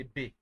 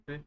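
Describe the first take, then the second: First: B said as "bee"; English-style B. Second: B said with a short rounded vowel, like "beh"; French B. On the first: Teacher shows what French B is not, B as "bee". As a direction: say B with an English ee vowel. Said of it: "it's not really B". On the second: Teacher corrects learners' letter B, short French "beh". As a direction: say B short, without the English ee. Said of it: "but actually it's not really B". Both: Shown as a demonstration.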